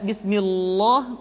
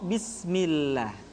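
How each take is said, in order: First: The L sound is said thick and heavy. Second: The L sound is said thin and light. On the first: The speaker calls it wrong. "tidak bismillah" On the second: The speaker calls it right. "lam kembali dibaca dengan tipis"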